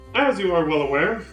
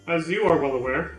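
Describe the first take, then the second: First: It is said forcefully, with strong emphasis. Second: It is said flatly, with little emphasis. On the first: The speaker calls it right. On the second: The speaker calls it wrong.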